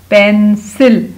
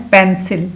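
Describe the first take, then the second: First: pencil slow and loud, split into पेन and सिल; syllable-by-syllable blending. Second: Said in the usual way. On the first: Shown as a demonstration. Teacher blending pencil for pupils, syllable by syllable. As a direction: break pencil into two stretched syllables, falling at the end.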